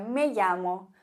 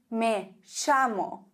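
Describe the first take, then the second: First: It is said with a Spanish accent. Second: It is said with an Argentine accent.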